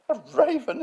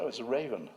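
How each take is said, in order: First: Incredulous mock sneer, very high and loud; David Wilson. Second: Said in the usual way. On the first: Museum head scoffing at the raven, imitated with high disbelief. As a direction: echo it in a shrieky, scornful put-on voice. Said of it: "he is a sneerer".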